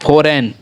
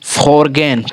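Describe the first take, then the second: First: No g sound is heard in the middle. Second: A g sound is heard in the middle. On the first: The speaker calls it right. "क्योंकि जी हमेशा silent रहता है" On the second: The speaker calls it wrong. "ये हमारा फॉरगेन ना होकर"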